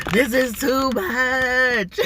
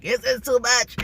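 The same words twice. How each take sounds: First: Much higher, louder and slow, stretching "too much"; drawn-out overwhelmed cry. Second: Body overwhelmed. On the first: Voicing her body overwhelmed by stress, drawn-out loud cry. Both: Retold or imitated. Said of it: "my body is like".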